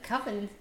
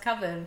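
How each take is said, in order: First: The word rhymes with oven. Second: The word does not rhyme with oven. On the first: The speaker calls it wrong. "it rhymes with oven" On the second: The speaker calls it right. "oh, it's pronounced coven"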